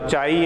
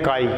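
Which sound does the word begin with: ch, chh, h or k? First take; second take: ch; k. First: The word begins with a plain ch sound. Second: The word begins with a k sound. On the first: The speaker calls it wrong. "ना तो चाई है ना" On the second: The speaker calls it right. "तो असल में क्या है? तो ये है काई।"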